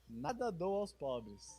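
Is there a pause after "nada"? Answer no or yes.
no. It is said without a pause after nada.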